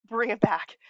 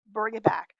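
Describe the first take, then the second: First: Whispered self-reminder. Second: Said in the usual way. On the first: Shown as a demonstration. Rambling vlogger hushes herself back on track, whispering. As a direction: breathe it to yourself after a sigh.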